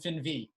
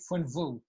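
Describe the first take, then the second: First: The vowels are said in the Brooklyn Yiddish way. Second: The vowels are said in the standard Yiddish way. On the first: "or in Brooklyn" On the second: "you say funvu"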